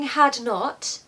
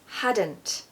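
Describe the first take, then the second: First: Two separate full words are said. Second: One contracted word is said. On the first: The speaker calls it wrong. "We're not saying had not" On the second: The speaker calls it right. "we're saying hadn't"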